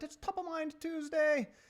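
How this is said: It is said in a put-on Irish accent.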